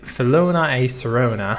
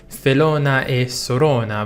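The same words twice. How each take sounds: First: It is said with an English accent. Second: It is said with an Italian accent. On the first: The speaker calls it wrong. "I'm saying it like ... which doesn't sound good" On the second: The speaker calls it right. "It's like"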